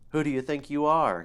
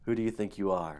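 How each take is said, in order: First: It is said in a high put-on voice. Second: It is said in a normal voice.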